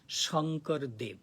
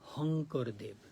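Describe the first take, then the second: First: The name begins with an 'sh' sound. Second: The name begins with an 'h' sound.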